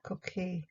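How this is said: A French accent with the L nearly silent. "French is more like coquille, like the um, the L is more silent"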